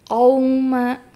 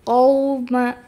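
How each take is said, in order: The two takes are said the same way.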